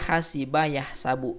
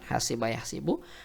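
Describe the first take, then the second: First: The middle vowel of yahsabu is a. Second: The middle vowel of yahsibu is i. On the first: This is how most Arabs say it. The speaker calls it right. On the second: The speaker calls it wrong.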